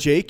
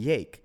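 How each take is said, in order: First: The name is said with a plain accent. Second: The name is said with a Spanish accent. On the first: This is the name's actual form. The speaker calls it right. "it's actually Jake" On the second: This is how coworkers say it. The speaker calls it wrong.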